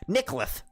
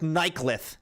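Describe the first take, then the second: First: The name begins with a short 'nick' sound. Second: The name begins with a long 'knight' sound. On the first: The speaker calls it wrong. "it's gonna sound like I have a lisp" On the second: The speaker calls it right. "I'm going with Nightclith"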